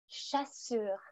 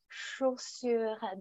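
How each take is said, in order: First: The first vowel sounds like 'a'. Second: The first vowel sounds like 'o'. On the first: The speaker calls it wrong. "mes élèves disent souvent chassure" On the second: The speaker calls it right. "Et je dis non, chaud, chaussure"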